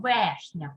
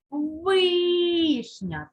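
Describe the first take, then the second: First: Вишня mispronounced as «вешня», with «е»; lower-pitched вешня, «е» replacing «и»; wrong vowel shown. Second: Вишня with a long, high «и»; stressed first syllable. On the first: Teacher shows what nobody says, вешня with a wrong «е». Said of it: "Ми вже ніяк не скажемо слово". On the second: Teacher hammers the stress for pupils, вишня with drawn-out «и». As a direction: stretch the first vowel of вишня. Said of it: "щоб ненаголошений склад став наголошеним". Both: Shown as a demonstration.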